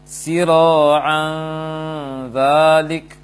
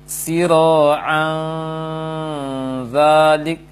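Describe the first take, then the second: Both takes have the same delivery.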